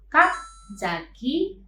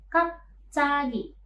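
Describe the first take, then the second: First: The middle consonant is a plain j. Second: The middle consonant is a tense jj. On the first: The speaker calls it wrong. "bukan kapjagi" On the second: The speaker calls it right. "konsonan ciat ini bisa berubah menjadi sang ciat"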